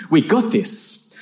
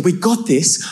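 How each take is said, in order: First: Slow, drawn-out confidence; cocky reassurance. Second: Higher, quicker disbelieving repeat; incredulous echo. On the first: Cousin reassures the outnumbering trio, slow and cocky. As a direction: stretch it out, sure of yourself. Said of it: "he looks at me and goes". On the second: Older cousin echoes his cousin's boast, incredulous. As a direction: throw the words back in disbelief. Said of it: "I'm thinking, "We got this". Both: Retold or imitated.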